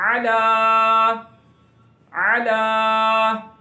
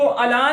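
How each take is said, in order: First: अला from the throat, last aa held long; correct Ain. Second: अला short, with a plain a at the start; wrong plain vowel. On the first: Teacher shows the correct reading, long throaty Ain word. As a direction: start अला with a throaty Ain and stretch the ending. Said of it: "बल्कि क्या पढ़ना है". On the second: Teacher shows how not to read it, plain a. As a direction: say अला quickly, no throat sound. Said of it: "इसको अला नहीं पढ़ना". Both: Shown as a demonstration.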